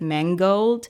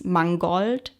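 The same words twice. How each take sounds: First: It is pronounced the English way. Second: It is pronounced the German way. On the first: "in English, I guess you would pronounce it mangold" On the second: "it is the German word for that"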